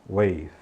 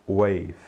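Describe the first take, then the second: The two takes are said the same way.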